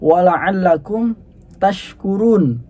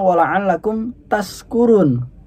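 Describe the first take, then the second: First: The consonant after ta is sh. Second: The consonant after ta is s. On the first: The speaker calls it right. "ini kalimat aslinya" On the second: The speaker calls it wrong. "akan terjadi sebuah kesalahan"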